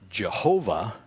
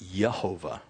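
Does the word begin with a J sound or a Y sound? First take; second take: J sound; Y sound. First: The word begins with a J sound. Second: The word begins with a Y sound. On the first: The speaker calls it wrong. "I think that's a mispronunciation" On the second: The speaker calls it right. "it would more likely be pronounced Yehovah"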